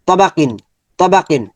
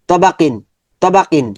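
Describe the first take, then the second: Both takes have the same delivery.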